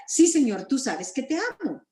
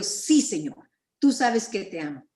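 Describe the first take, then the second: First: Pleading, higher-pitched answer with a touch of distress; afligido Pedro, acted. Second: Said in the usual way. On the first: Peter answers Jesus's repeated question, mildly afflicted. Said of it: "aflicción tal vez". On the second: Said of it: "Le respondió".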